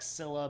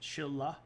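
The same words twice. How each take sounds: First: The name begins with a plain S sound. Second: The name begins with an SH sound. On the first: The speaker calls it wrong. "I know it looks like Scylla" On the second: The speaker calls it right. "you say it with an S H"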